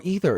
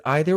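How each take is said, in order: First: "either" pronounced EE-ther; long-E pronunciation. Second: "either" pronounced EYE-ther; long-I pronunciation. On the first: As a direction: say "either" starting with ee. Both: Shown as a demonstration. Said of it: "say either or either differently".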